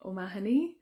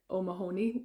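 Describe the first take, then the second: First: O'Mahony with stress on MA, short unstressed ho; Irish pronunciation. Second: O'Mahony with stress on a long HO; alternative pronunciation. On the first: Introducing herself to viewers, O'Mahony said the Irish way. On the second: Offering viewers abroad their version, O'Mahony stressed on HO. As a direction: say O'Mahony as oh-ma-HOE-nee. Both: Shown as a demonstration. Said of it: "depending on where you are tuning in from".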